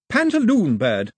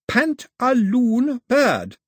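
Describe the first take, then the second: First: Put-on high, slow girl's voice; name it clearly in a raised voice; lightly voiced girl teaching a word; Daphne naming the bird. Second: Very slow, high and loud; over-slow baby talk, raised pitch; very slowly. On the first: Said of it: "she said". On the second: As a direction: stretch every syllable as if to a baby. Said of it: "she said, very slowly". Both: A narrator's reading.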